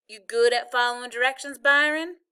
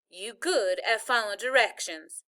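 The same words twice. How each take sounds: First: Louder question with a high rise on the name; Southern granny's rising question; Southern grandma, asking. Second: Measured Southern granny, falling at the end; pointed grandmotherly restatement; firm repeat. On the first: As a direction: ask the grandson, lifting the end sharply. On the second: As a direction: repeat it firmly, without the questioning lift. Grandma repeats her question after correcting him. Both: A narrator's reading.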